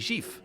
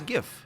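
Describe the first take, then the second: First: The G sounds soft, like Portuguese J. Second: The word is said with the English G. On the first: "That's how we would say it in Portuguese" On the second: "I say GIF"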